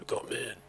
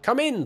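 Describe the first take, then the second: First: Hoarse. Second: High strained croak, a noir detective choking it out; strained hoarse croak. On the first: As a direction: mutter it through a dry throat. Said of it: "the hoarse words strained from my throat". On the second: Detective answering the knock, hoarse croak. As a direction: force the words out through a dry throat. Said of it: "the hoarse words strained from my". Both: Acted.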